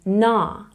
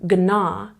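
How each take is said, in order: First: No G sound is heard before the N. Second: A G sound is heard before the N. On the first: The speaker calls it right. "you're saying na" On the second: The speaker calls it wrong. "you're not saying gna"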